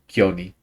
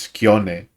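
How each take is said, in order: First: The final vowel is an 'ee' sound. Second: The final vowel is an 'eh' sound. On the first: "they all call him Kioni" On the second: "whose name is Kione"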